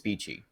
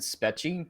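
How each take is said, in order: First: The first vowel is a long 'ee' sound. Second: The first vowel is a short 'e' sound. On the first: The speaker calls it right. "but apparently it's Speechy" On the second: The speaker calls it wrong. "I pronounced it Spetchy because there's one E"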